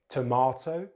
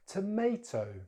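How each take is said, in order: First: It is said with a British accent. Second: It is said with an American accent. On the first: "in British English" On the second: "then American English"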